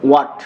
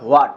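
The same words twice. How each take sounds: First: "What" as short wat, no h; corrected pronunciation. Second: "what" with an h before the w; wrong pronunciation. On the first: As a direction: model "What" starting straight on w. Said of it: "তাহলে এটা সঠিক উচ্চারণ হবে". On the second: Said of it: "সঠিক উচ্চারণ হবে not what". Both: Shown as a demonstration.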